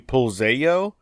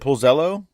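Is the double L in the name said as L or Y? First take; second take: Y; L. First: The double L is said as a Y sound. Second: The double L is said as an L sound. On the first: "the two L's at the end are pronounced like a Y" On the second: "you got it completely right the first time"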